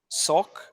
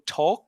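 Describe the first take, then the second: First: The word begins with an S sound. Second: The word begins with a T sound. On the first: The speaker calls it wrong. "you make an S sound instead of a T sound" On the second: The speaker calls it right. "instead of saying talk"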